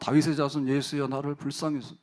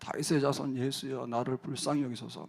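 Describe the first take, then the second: First: It is shouted even louder. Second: It is shouted loudly.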